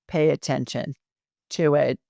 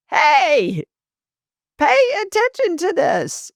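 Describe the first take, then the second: First: Said in the usual way. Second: High-pitched urgent call of a spirit; mock scream. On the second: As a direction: cry out for attention, pitched way up without full volume. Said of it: "spirit's screaming at this point".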